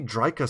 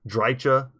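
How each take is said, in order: First: The middle consonant is a 'k' sound. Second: The middle consonant is a 'ch' sound. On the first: This is the version the speaker prefers. "for me, Dryka sounds right" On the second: This is a version other people use. "I've heard Drycha"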